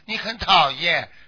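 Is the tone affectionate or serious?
affectionate. It is said in a fond, teasing tone. The speaker is fond of the listener. The speaker calls it wrong. "好像很喜欢你啊，你很讨厌，是这种口气啊？"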